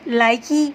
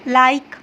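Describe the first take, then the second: First: An extra vowel is sounded at the end. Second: The word ends with no extra vowel. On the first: The speaker calls it wrong. "ई को हम completely ... नहीं पढ़ते" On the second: The speaker calls it right. "सिर्फ simple इसको ऐसे पढ़ते हैं"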